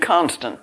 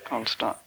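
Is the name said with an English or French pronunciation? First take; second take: English; French. First: The name is said with an English pronunciation. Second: The name is said with a French pronunciation. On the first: "it would be English in Constant" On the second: "That was what my French came up with"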